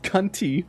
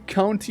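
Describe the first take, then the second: First: The first vowel sounds like in 'cup'. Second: The first vowel sounds like in 'cow'. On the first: The speaker calls it wrong. "I said county" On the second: The speaker calls it right. "instead of saying county"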